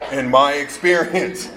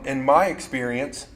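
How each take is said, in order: First: The phrase is said slowly and deliberately. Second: The phrase is said at a normal pace.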